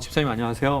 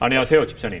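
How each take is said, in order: First: The voice is relaxed and natural. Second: The voice is pushed and deliberately forced. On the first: This is how he talks now. The speaker calls it right. "목소리도 그냥 지금처럼 이렇게" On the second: He was overcompensating out of insecurity. The speaker calls it wrong. "일부러 힘줘서"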